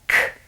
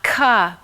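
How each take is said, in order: First: The consonant is said alone, without a vowel. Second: The consonant is followed by a vowel. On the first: The speaker calls it right. "but k" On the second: The speaker calls it wrong. "Not ka"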